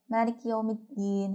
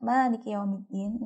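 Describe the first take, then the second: First: It is rushed and the vowel after K drops. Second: The vowel after the K is clearly kept.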